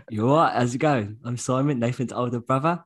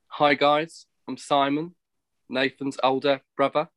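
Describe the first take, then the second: First: Lightly put-on Cockney, cheery greeting; a touch of Cockney, bright and friendly; Cockney accent. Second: Put-on light London accent, casual greeting; a hint of a London accent, easy and chatty; Simon accent. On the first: Brother mimicking his Cockney older brother. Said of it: "you talk about a Cockney family". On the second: Brother doing his older brother's London accent. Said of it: "give you a bit of my Simon accent".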